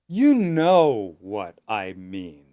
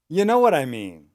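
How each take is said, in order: First: The phrase is spoken slowly and carefully. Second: The phrase is spoken quickly and run together. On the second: "and fast"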